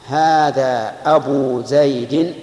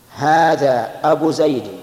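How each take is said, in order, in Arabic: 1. الكلمة تنتهي بضمة طويلة. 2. الكلمة تنتهي بضمة قصيرة. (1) "هذا الإتمام" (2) "هذا النقص"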